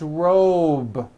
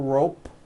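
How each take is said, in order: First: The final sound is a voiced B. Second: The final sound is a voiceless P. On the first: The speaker calls it right. "It's robe" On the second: The speaker calls it wrong. "It's not rope with an unvoiced P"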